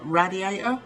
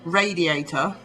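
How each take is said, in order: First: "radiator" opening RAD, short a; imitated American pronunciation. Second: "radiator" opening RAY; long a in "radiator", RAY-dee-ay-tuh; English pronunciation. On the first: English speaker mimicking Americans, short-a "radiator". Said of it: "say more like radiator". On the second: English speaker showing how we say it, RAY-first "radiator". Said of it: "we say". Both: Shown as a demonstration.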